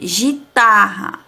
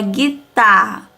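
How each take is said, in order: First: The first consonant is a soft j sound. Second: The first consonant is a hard g sound. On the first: The spelling has no u after the g. The speaker calls it wrong. "Se não tivesse o U aqui, ia ficar o quê?" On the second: The spelling has a u after the g. The speaker calls it right. "Mas como tem U, é guitarra"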